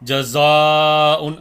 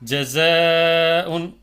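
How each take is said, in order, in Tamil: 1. நீண்ட உயிர் எழுத்து கனமாகவும் முழுமையாகவும் இருக்கும். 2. நீண்ட உயிர் எழுத்து லேசாகவும் மெலிதாகவும் இருக்கும். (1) "அப்படி படிக்கக்கூடாது" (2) "ஜஸ அப்படின்னு படிக்கணும்"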